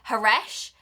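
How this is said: The name is said in an English accent. "in an English accent, you'd say"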